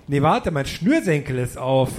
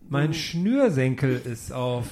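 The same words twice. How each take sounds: First: Said in the usual way. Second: Slow repeat. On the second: Acted.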